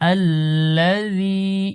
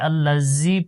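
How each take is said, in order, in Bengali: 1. মাঝের ব্যঞ্জনটি নরম ও হালকা করে বলা হয়। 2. মাঝের ব্যঞ্জনটি শক্ত করে বলা হয়। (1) "নরম করে" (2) "অনেকে আল্লাযী পড়ে"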